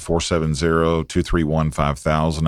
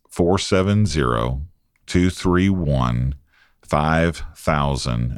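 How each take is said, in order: First: The number is said at a fast pace. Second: The number is said at a slow pace.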